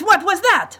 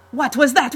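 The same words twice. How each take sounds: First: Even higher, louder furious yell; angrier shout. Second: Angry shout. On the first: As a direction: explode the second time. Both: Acted. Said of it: "Monte Santo shouted".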